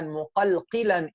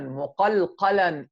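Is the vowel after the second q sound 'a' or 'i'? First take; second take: i; a. First: The second qaf is followed by an 'i' vowel. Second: The second qaf is followed by an 'a' vowel. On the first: "it has kasra as well" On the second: "the qaf has fatha"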